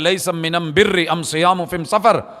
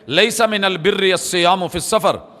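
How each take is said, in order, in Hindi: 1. आर्टिकल का उच्चारण 'm' की आवाज़ के साथ होता है। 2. आर्टिकल का उच्चारण 'l' की आवाज़ के साथ होता है। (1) "कौम के लहजे में" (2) "फसीहुल लिसान थे"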